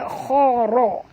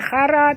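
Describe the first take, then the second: First: The r sound is said thick and heavy. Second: The r sound is said thin and light. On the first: The speaker calls it right. "ra ni tebal ya" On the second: The speaker calls it wrong. "bukan khara"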